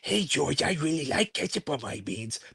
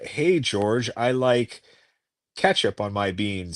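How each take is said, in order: First: It is read in a put-on Lenny voice. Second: It is read in the speaker's plain voice.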